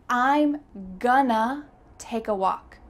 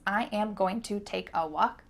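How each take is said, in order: First: The words are contracted and reduced to gonna. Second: Every word is said in full, unreduced. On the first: "The word to simply changed into a" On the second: "Is that the fastest way to say this sentence?"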